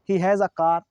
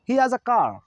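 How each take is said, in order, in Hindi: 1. has में शुरू का h उच्चारित होता है। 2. has में शुरू का h छोड़ दिया जाता है।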